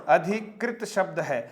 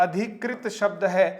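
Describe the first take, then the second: Both takes have the same delivery.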